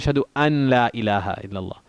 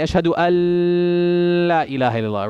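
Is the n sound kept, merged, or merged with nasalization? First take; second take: kept; nasalized. First: The n is pronounced separately before the l. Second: The n merges into l with a nasal hum. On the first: "Somebody will say" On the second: "That's wrong. There's no ghunna"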